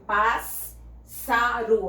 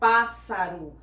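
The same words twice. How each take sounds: First: The middle S sound is doubled. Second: The middle S sound is single. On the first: The speaker calls it wrong. "a gente não fala assim" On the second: The speaker calls it right. "a gente fala pássaro"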